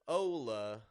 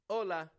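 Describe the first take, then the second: First: An American accent with strong, drawn-out vowels. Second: A Spanish accent with firmer consonants and lighter vowels. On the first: "you'll hear an American say something like" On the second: "instead of"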